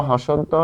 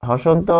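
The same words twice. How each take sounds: No difference in how they are said.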